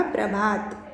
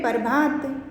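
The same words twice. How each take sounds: First: "प्रभात" opening on a joined "pra"; correct pronunciation. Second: "प्रभात" said as "par-bhaat"; incorrect form. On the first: Teacher gives students the right word, correct pronunciation. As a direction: join p and r at the start of "प्रभात". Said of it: "इसका सही शब्द ये होगा प्रभात". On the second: Teacher reads out the word to be corrected, incorrect form. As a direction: put the vowel before the r in "प्रभात". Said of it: "इस तरह से ये अशुद्ध शब्द है". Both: Shown as a demonstration.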